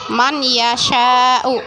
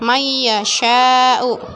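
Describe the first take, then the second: First: The n sound is said clearly before y. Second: The n merges into a nasal y sound. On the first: This is how it is written. "dalam tulisan itu man yasha'u" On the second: This is how it is actually read. "di bacanya may yasha'u"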